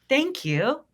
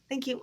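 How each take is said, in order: First: It is said in a confident, grounded way. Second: It is said meekly, like Oliver Twist begging.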